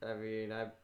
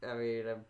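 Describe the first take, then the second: No difference in how they are said.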